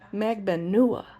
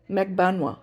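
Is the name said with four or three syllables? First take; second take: four; three. First: The name is said with four syllables. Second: The name is said with three syllables. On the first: "so Mentor Lawyer says Magbanua" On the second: "Almost like three syllables, not four"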